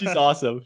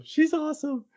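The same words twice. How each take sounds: First: Said in the usual way. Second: Way up high, gushing; excited fan squeal. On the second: Shown as a demonstration.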